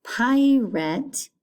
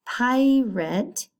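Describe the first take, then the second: No difference in how they are said.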